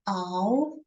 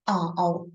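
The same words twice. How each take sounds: First: The pitch rises from middle to high. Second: The pitch dips low and comes back up.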